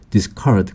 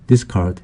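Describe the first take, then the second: First: The stress is on the second syllable. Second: The stress is on the first syllable. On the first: It is a verb meaning to throw away. "강세가 뒤에 있으면 동사가 돼서" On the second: It is a noun meaning a throwing away. "강세가 앞에 있으면 명사가 되고요"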